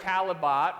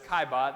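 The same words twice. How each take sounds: First: The name is read out letter by letter, as spelled. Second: The name is said differently from its spelling. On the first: The speaker calls it wrong. "He looks like Caillebotte, right? But that's not how it goes" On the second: The speaker calls it right. "It's Caillebotte. That's how you say it"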